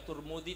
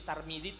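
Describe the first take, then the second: First: The first vowel sounds like u. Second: The first vowel sounds like a. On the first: "Boleh dibaca Turmudi"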